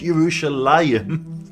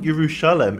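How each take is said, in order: First: The word ends with an '-ayim' sound. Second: The word ends with a short '-em' sound. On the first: The speaker calls it right. "it's Yerushalayim" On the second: The speaker calls it wrong. "It's not Yerushalem"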